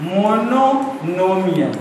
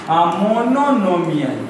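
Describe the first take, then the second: Both takes have the same delivery.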